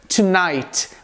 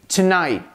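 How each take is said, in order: First: The final T sound is clearly released. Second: The final T is held and not released. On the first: "com a pronúncia do T final" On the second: "como se você simplesmente pausasse o T que vem ao final"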